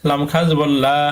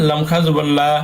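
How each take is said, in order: No difference in how they are said.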